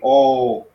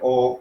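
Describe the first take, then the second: First: The vowel is held long. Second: The vowel is short.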